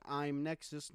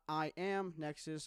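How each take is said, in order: First: I'm Nexus blended into one word, Imnexus; I'm Nexus run together. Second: I am Nexus with I and am said apart, slowly; separate I am. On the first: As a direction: slide I'm straight into Nexus with no break. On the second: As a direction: spell out I am Nexus word by word, slowly. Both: Shown as a demonstration. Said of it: "not I am Nexus".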